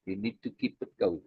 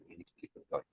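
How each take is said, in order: First: Low, quiet and intent, almost unvoiced; hushed emphasis. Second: A near-silent whisper, much softer; whispered repeat. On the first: Teacher hushing to stress keeping the pressure on, quietly. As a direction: press the point home softly. Repeating key advice to students. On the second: Teacher whispering the lesson back to students, whispered. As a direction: drop to a whisper to drive it in. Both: Real, not acted.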